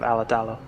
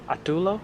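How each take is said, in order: First: The surname is said in its full form. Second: The surname is said in a garbled, shortened form. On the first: This is the name's correct pronunciation. The speaker calls it right. "instead of Alatalo" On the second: This is how others mispronounced the name. The speaker calls it wrong. "pronounced his name uh, rather incorrectly"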